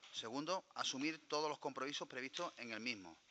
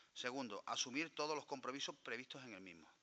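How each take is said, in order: Both takes have the same delivery.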